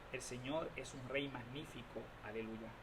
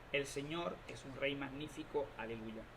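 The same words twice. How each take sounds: No difference in how they are said.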